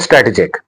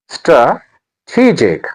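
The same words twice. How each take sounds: First: The stress falls on another syllable. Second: The stress falls on the 'te' syllable. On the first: The speaker calls it wrong. "Not a strategic" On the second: The speaker calls it right. "The stress is on t"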